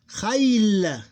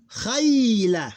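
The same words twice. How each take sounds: First: Khayl drawn out high and loud, closed on L; double closed syllable. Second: Khayla loud and high, long "khay" then "la"; diphthong, open ending. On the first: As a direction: glide long through Khayl, no vowel after L. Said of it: "Double closed syllable". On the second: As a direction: glide through "khay" in khayla and add "la". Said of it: "This one is diphthong". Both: Shown as a demonstration.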